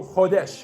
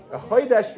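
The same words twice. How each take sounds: First: "chodesh" with a plain O and clear E; Hebrew pronunciation. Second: "chodesh" with an OY in the first syllable; Yiddish pronunciation. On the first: Teacher giving the source word, Hebrew pronunciation. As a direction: Hebrew accent, "KHO-desh" without the OY. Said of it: "is from the Hebrew chodesh". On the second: Teacher contrasting Yiddish with Hebrew, Yiddish pronunciation. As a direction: Yiddish accent, "CHOY-desh". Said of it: "in Yiddish, it would just be a". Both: Shown as a demonstration.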